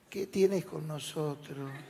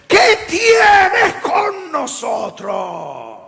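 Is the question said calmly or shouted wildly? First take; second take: calmly; shouted wildly. First: It is said in a calm, ordinary voice. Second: It is said in a loud, wild, shouting voice. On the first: A churchgoer asks it mildly. "como ustedes dicen" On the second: A possessed man cries it out. "habrá dicho: ... Me salió bien, ¿no?"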